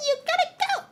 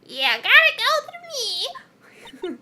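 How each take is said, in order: First: High squeaky first try at a crone; old hag. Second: High, slow, drawn-out crone; old hag voice. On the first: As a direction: reach for the hag voice, not there yet. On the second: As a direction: stretch it out like a creaky old hag. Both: Acted. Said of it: "how do I do my old hag voice?".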